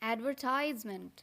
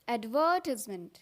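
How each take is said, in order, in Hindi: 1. यह अमेरिकन उच्चारण में बोला गया है। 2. यह ब्रिटिश उच्चारण में बोला गया है। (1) "अमेरिकन में बोलते हैं" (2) "ब्रिटिश में बोलते हैं"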